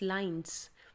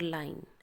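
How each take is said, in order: First: The word ends with a clear s sound. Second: The word ends without an s sound. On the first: The speaker calls it right. "It's लाइंस" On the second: The speaker calls it wrong. "आपने ये नहीं बोल देना"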